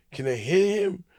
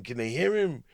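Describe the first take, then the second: First: "hear" pushed higher with a rising squeak of disbelief; stress on hear. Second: Said in the usual way. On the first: Retold or imitated. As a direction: hit "hear" hard and high, baffled. Puzzled comic asks twice.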